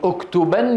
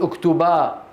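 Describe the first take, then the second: First: The word ends with an n sound. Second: The word ends with a long a sound. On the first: The speaker continues without stopping. "يعني اكتبن يا هذا" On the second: The speaker stops on the word. "فإذا أراد أن يقف يقول اكتبا"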